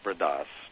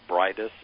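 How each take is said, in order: First: The name is said with Spanish pronunciation. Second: The name is read out as English spelling. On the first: This is how native speakers say it. "in Spanish they pronounce it Bridas" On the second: It is easier for listeners to say. "I always say it phonetically because people can find it easier"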